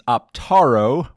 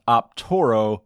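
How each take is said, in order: First: The middle vowel sounds like 'ah'. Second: The middle vowel sounds like 'oh'. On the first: The speaker calls it right. "with an A" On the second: The speaker calls it wrong. "not Optoro with an O"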